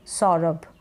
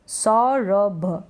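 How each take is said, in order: First: Said in the usual way. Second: सौरभ very slow, split as sau-ra-bha with the last sound released; sounded out slowly. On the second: Shown as a demonstration. Teacher reading back the spelled name, सौरभ broken into slow syllables.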